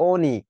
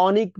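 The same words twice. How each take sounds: First: অনিক with a rounded "oh" first vowel; correct closed ও. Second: অনিক mispronounced as "AW-nik"; wrong open অ. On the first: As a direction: pronounce অনিক as "OH-nik". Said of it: "তখন আবার বলি কি". (অনিক, শুরুতে ও-এর মতো উচ্চারণ) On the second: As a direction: open the first vowel of অনিক to "aw". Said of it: "অনিক বলি না কিন্তু". (অনিক, ভুল করে খোলা অ দিয়ে) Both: Shown as a demonstration.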